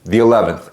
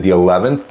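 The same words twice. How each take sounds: First: Said in the usual way. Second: "eleventh" rising into a question; questioning echo. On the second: Retold or imitated. Caller querying the agent's appointment date, questioning echo.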